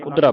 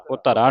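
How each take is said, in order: First: ਉਧਰਾ with a short u, falling; short u start. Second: ਉਹ ਧਰਾ with an o at the start; wrong first vowel. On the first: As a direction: begin ਉਧਰਾ on u, not o. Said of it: "ਉਧਰਾ ਪੜ੍ਹਨਾ". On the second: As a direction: say ਉਹ ਧਰਾ as "odhra". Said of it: "ਉਹ ਧਰਾ ਨਹੀਂ ਪੜ੍ਹਨਾ". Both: Shown as a demonstration.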